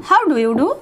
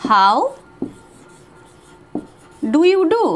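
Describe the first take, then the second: First: Said in the usual way. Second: Word by word. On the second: Shown as a demonstration. Teacher drilling the formal greeting slowly. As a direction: split how from the rest. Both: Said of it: "বা বলতে পারি".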